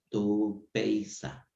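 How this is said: The last syllable has an 's' sound.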